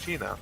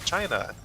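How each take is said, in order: First: It is said with a Spanish accent. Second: It is said with an English accent. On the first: "just pronouncing it with a Spanish accent" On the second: "China in Spanish"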